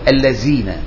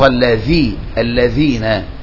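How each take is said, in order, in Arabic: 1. الحرف صوت الزاي المهتز. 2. الحرف صوت الثاء، واللسان بين الأسنان. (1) "فيقول الذين، فهذا يضل حرف بحرف، فالذال حرف والزاي حرف" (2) "اعتني بإخراج لسان في الذال"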